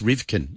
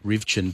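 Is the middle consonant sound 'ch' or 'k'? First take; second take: k; ch. First: The middle consonant is a 'k' sound. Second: The middle consonant is a 'ch' sound. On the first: The speaker calls it wrong. "but it's Rivkin, isn't it?" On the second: The speaker calls it right. "I realised I've been pronouncing it Rivchin"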